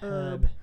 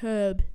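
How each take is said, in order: First: The word is said in an American way. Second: The word is said in a British way. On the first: "instead of herb" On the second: "because I'm British now, I say herb"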